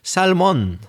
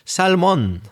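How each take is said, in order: First: The L sound is pronounced. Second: The L sound is pronounced.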